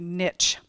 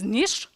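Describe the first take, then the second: First: It is said the Texas way, like nitch. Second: It is said the French way, like neesh.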